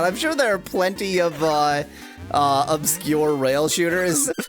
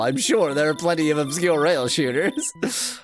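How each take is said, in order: First: It is said in a sarcastic-sounding tone. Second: It is said in a sincere, earnest tone. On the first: The speaker seems to mock the suggestion. The speaker calls it wrong. "That that sounded sarcastic" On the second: The speaker genuinely agrees with the suggestion. The speaker calls it right. "I was not being sarcastic at all"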